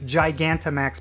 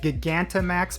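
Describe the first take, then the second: First: The word does not begin like 'giga'. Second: The word begins like the word 'giga'. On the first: The speaker calls it right. "But apparently it is Gigantamax Pokemon" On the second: The speaker calls it wrong. "I've been calling it Gigantamax Pokemon, specifically because I've been looking at the word Giga"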